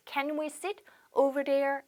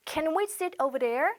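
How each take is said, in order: First: Slow repeat. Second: Drawn out for learners; slow model question. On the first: Teacher repeating the question for students, slowly. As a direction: question drawn out again. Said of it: "네". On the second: Teacher modelling a question for students, slowly. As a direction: ask it slowly and clearly. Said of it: "영어로". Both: Shown as a demonstration.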